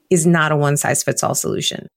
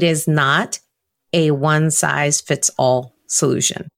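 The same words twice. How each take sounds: First: The phrase is spoken at a normal, quicker pace. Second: The phrase is spoken at a slower pace.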